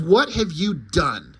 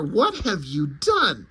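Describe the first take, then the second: First: Slow, stern, heavy reproach; raised-voice demand. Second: Slow mock yell, swooping in pitch; louder yell. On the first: Acted. Superman confronts the wizard, stern raised voice. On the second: Superman yells at the wizard, mild mock yell. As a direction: draw out an outraged demand, pitch jumping. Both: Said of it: "Superman yells even louder".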